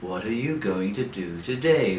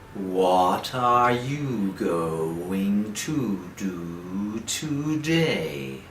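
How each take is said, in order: First: The sentence is spoken quite fast. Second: The sentence is spoken very slowly. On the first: "a little faster and faster and faster, like this" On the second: "you take a deep breath and you speak very slowly"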